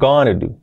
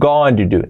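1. 'Going to' se dice rápido, reducido a 'gonna'. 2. Cada palabra de 'going to' se dice completa.

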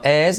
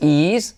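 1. La palabra «is» se dice con una vocal tipo inglés. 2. La palabra «is» se dice con una vocal tipo español. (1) "sino es" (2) "no es is"

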